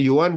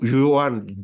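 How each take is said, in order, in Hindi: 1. नाम की शुरुआत Y की आवाज़ से होती है। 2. नाम की शुरुआत हल्की J की आवाज़ से होती है। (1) "स्पेनिश में जे जो होता है उसकी साउंड वाई हो जाती है" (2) "फ्रेंच एक्सेंट था ... हल्की सी जे की साउंड आती है"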